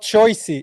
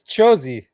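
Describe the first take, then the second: First: The first vowel is 'oy', as in choice. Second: The first vowel is 'oh', as in chosen. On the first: The speaker calls it wrong. "It's not choicey" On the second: The speaker calls it right. "It's chozy"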